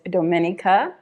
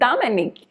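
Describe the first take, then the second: First: The name is said with an English pronunciation. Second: The name is said with a French pronunciation. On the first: "the English pronunciation is" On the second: "the French pronunciation that they say in Martinique is"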